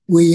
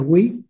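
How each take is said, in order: First: The word is said with a level tone. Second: The word is said with a rising tone. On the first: It means returning. The speaker calls it right. "quy chứ không phải là quý" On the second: It means valuing. The speaker calls it wrong. "không phải là quý"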